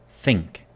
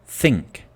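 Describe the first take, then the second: No difference in how they are said.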